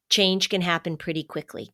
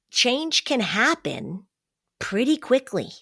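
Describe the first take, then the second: First: Said in the usual way. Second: Change can happen pretty quickly, slow and higher, each word weighed; stressing that change can be quick; slow emphatic stress. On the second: Real, not acted. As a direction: lean hard on can and pretty, slowly.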